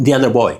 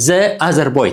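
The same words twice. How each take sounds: First: Put-on "The other boy" with "The" said as "thee" before the vowel. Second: Put-on "The other boy" with "The" said wrongly as "thuh" before the vowel. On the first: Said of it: "ድሕሪኣ ዘሎ ኦት ኮይንኻ፣ ዚ ኮይና ኣላ". ("The" ከም "ዚ" ተድምፃ) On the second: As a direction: say "The" as a short "thuh", the way that doesn't sound English. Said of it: "it doesn't sound English". ("The" ከም "ዘ" ተድምፃ፣ ጌጋ) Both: Shown as a demonstration.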